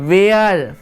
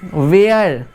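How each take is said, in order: No difference in how they are said.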